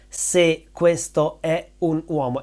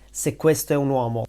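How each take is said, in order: First: The last words are said separately and clearly. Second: The last words are shortened and run together.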